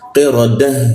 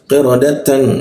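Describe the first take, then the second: First: The word ends with a soft h sound. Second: The word ends with a full tan sound. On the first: The reader stops at this word. "tapi kalau berhenti jadi ha dia" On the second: The reader continues into the next word. "kalau dibaca jadi qiradatan"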